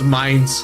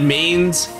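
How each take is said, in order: First: The name rhymes with 'lines'. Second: The name rhymes with 'rains'. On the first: The speaker calls it right. "It actually is pronounced Mines" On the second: The speaker calls it wrong. "I pronounced it Mains"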